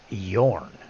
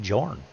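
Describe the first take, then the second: First: The name starts with a Y sound. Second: The name starts with a J sound. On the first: The speaker calls it wrong. "I always figured the J would be silent" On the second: The speaker calls it right. "They pronounce it as a J, not as a Y"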